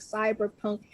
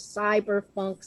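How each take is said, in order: First: Said in the usual way. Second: "cyberpunk" pronounced cyber-FUNK; F sound in cyberpunk. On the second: Real, not acted. Lists cyberfunk beside cyberpunk.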